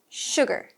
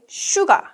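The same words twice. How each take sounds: First: The word is said with an English accent. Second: The word is said with a Korean accent. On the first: The speaker calls it right. "but this is sugar" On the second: The speaker calls it wrong. "Sugar is common in Korean pronunciation"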